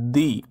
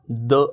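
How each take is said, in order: First: The vowel is a long 'ee' sound. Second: The vowel is a short 'uh' sound. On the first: The next word begins with a vowel. "दचा उच्चार दी असा करावा" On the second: The next word begins with a consonant. "दचा उच्चार आपण द असाच करावा"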